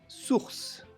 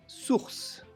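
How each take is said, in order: First: It is said with a French pronunciation. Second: It is said with a French pronunciation.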